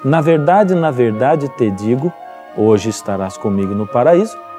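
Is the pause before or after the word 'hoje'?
before. There is a pause before 'hoje'.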